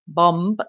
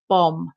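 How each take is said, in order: First: A B sound is pronounced at the end. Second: The word ends on the M sound. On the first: The speaker calls it wrong. "We don't say bomb" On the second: The speaker calls it right. "It's just bomb. the B is silent"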